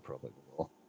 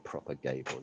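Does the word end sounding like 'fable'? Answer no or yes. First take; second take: no; yes. First: The ending is said without rhyming with 'fable'. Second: The ending is said to rhyme with 'fable'. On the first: The speaker calls it right. "You'd say propagable" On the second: The speaker calls it wrong. "You wouldn't say propagable"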